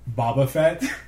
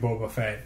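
First: The first syllable sounds like 'bah'. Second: The first syllable sounds like 'boh'. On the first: The speaker calls it wrong. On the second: The speaker calls it right.

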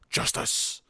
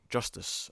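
First: It is said in a gruff Batman voice. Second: It is said in a normal speaking voice.

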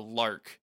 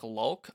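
First: The name is said with an R sound, like 'lark'. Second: The name is said with an L sound, like 'lulk'. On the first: "you've been pronouncing the other lead a lark" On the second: "My subs had it like lulk"

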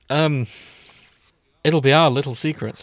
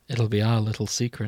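First: The line sounds less creepy and more harmless. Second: The line sounds creepy and unsettling. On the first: The speaker calls it right. "that's as good as it's going to fucking get" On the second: The speaker calls it wrong. "There was something about the way you said it that triggered my fight or flight response"

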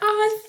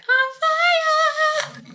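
First: It is said in the speaker's normal voice. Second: It imitates the guy from Parks and Rec.

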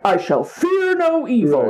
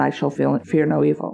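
First: The line is said boldly and defiantly. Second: The line is said casually and matter-of-factly. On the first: The speaker is declaring courage. "It is not like" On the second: The speaker is resigned and accepting. "It's almost like a throwaway"

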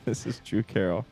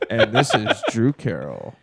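First: It is said in a quiet, reserved voice. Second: It is said in a showy radio DJ voice.

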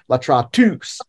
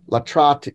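First: The stress is on the last syllable. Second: The stress is on the second-to-last syllable. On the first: The speaker calls it wrong. "You don't accent that syllable. Like you don't say latratus" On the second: The speaker calls it right. "You still accent the second to the last syllable"

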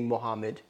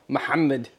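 First: The name is said with an English accent. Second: The name is said with an Arabic accent. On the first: "they say Muhammad to you" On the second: "You say it exactly how it's pronounced"

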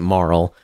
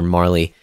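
First: The name is said as one syllable. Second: The name is said as two syllables. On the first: This is how the other person has been saying it. "you've been pronouncing it Marl" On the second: This is how the speaker has always said it. "I always called her Marley"

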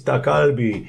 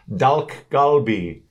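First: No l sound is heard before the g. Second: An l sound is heard before the g. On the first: The speaker calls it right. "It's dakalbi" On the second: The speaker calls it wrong. "How do you say these words?"

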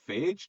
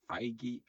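First: The name rhymes with the word beige. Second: The name does not rhyme with beige.

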